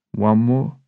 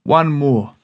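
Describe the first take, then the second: First: Cheeky, rising at the end; asking the mates for one more pint, cheeky rise; cheeky question. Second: Poem title spoken flat and final; title read with a falling close. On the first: Retold or imitated. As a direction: tempt your mates with a grin you can hear. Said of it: "cheeky look on my face". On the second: Shown as a demonstration. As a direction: announce the title firmly, falling at the end.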